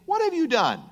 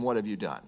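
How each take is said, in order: First: High-pitched indignant question; mock challenge in a raised pitch; challenging demand. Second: Low, soft recital of the question; subdued, falling-pitch quote; understated quotation. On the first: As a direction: call someone to account, pitched well up. Quoting someone challenging God. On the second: Retold or imitated. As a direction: let the question drop away quietly. Repeats the quote, no longer acted.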